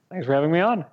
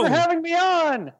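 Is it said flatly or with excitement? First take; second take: flatly; excitedly. First: It is said flatly, with little energy. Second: It is said with lots of excitement.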